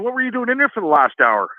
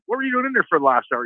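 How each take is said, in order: First: High mock interrogation; teasing question. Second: Quick, needling repeat; teasing question, faster. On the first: Coworkers teasing the brother about the hour inside, high and mocking. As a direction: needle him with it. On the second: Retold or imitated. Coworkers piling on the brother, quicker and teasing. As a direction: rattle it off to rub it in.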